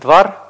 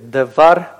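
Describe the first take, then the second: First: No vowel is heard between d and v. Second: A short vowel is heard between d and v. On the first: This is the modern pronunciation. "в более современном произношении, как я уже говорил, первый шива не произносится, они говорят двар" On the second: This is the traditional classical pronunciation. "Но мы следуем более традиционному классическому правилам"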